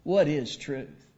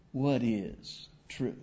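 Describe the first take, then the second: First: "What is truth?" a bit slow, at normal level, a firmer question; a touch slower, level challenge; alternate Pilate reading. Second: "What is truth?" drawn out slowly and low, softer, a distant voice; hushed, slow doubting question; slow musing Pilate. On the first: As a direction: ask "What is truth?" plainly and steadily. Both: Shown as a demonstration. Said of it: "I don't know the inflection of Pilate's voice".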